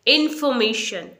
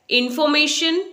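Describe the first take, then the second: First: "इन्फॉर्मेशन" as in-fuh-MAY-shun, falling; silent R. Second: "इन्फॉर्मेशन" with full FAW, higher and rising; wrong pronunciation. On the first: Teacher modelling the correct word, in-fuh-may-shun. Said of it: "आर यहाँ पर silent है". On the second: Teacher testing the wrong form, stressed faw. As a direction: say "इन्फॉर्मेशन" as a questioning in-faw-may-shun. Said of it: "इन्फॉर्मेशन नहीं बोलेंगे". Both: Shown as a demonstration.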